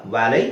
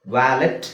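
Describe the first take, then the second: First: ವ್ಯಾಲೆ ending on an open vowel; silent T. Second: ವ್ಯಾಲೆಟ್ with the final T sounded; mispronounced valet. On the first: Teacher correcting the word, ವ್ಯಾಲೆ with no final T. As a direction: drop the T from ವ್ಯಾಲೆ. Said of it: "ಅಲ್ಲ". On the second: Teacher showing what not to say, ವ್ಯಾಲೆಟ್ with T voiced. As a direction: say ವ್ಯಾಲೆಟ್ with a hard T at the end. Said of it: "ಅಲ್ಲ, ವ್ಯಾಲೆ". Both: Shown as a demonstration.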